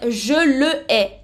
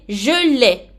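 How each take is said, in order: First: The pronoun is a full separate syllable. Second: The pronoun's vowel is dropped and joined on. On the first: The speaker calls it wrong. "Je ne peux pas dire" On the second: The speaker calls it right. "Non, c'est"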